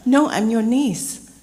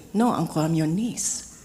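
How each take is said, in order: First: Loud, higher, drawn-out insistence; retold exasperated correction, slow and loud; emphatic correction. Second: Said in the usual way. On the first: Niece setting her teasing uncle straight, emphatic.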